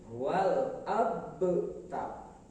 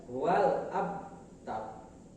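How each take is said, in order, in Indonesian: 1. Bunyi b dilepas dengan gema yang memantul. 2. Bunyi b ditutup tanpa memantul sama sekali. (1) "Yang betul" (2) "tidak boleh"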